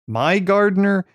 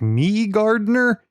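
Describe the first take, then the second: First: The first part sounds like the word my. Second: The first part sounds like the word me.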